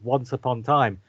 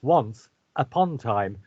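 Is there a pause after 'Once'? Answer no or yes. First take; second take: no; yes. First: The words run together without any pause. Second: There is a pause after the first word. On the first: The speaker calls it wrong. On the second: The speaker calls it right. "There's a comma in there. Let's pronounce the comma"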